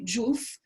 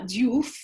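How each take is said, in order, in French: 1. Le nom commence par un son 'j'. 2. Le nom commence par un simple son 'd'. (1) "mais Diouf ... normalement, c'est un je" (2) "ce n'est pas Diouf"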